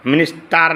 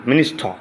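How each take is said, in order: First: মিনিস্টার with a full "tar" ending; wrong pronunciation. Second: মিনিস্টার ending in r-less "taw"; correct pronunciation. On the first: Teacher shows students what to avoid, wrong pronunciation. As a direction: sound the R in মিনিস্টার. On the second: Teacher models the word for students, correct pronunciation. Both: Shown as a demonstration. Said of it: "মিনিস্টার না".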